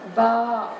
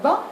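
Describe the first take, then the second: First: The vowel after b is prolonged. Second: The vowel after b is short. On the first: "mais ba, parce qu'on a fait la prolongation" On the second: "pas seulement bas"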